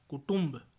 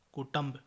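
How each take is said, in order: First: Said in the usual way. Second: कुटुंब with short a after ṭ; mispronunciation. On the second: Shown as a demonstration. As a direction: say ku-ṬAMB for कुटुंब. (कुटुंब को कुटंब बोलें) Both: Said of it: "कुटुंब नहीं".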